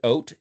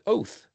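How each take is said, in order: First: The word ends with a t sound. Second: The word ends with a th sound. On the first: "It's pronounced oat if you give the phonetic T" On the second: "some people use T H for tav"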